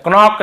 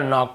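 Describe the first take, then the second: First: क्नॉक with a hard K before the N; K wrongly sounded. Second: Said in the usual way. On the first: Shown as a demonstration. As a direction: voice the silent K in क्नॉक. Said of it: "नहीं पढ़ेंगे". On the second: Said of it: "केवल नॉक पढ़ेंगे".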